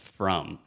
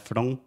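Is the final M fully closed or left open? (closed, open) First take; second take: closed; open. First: The lips close fully on the final M. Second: The lips do not fully close at the end. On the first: The speaker calls it right. "você precisa fechar a boca totalmente" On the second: The speaker calls it wrong. "a maioria dos brasileiros querem falar from"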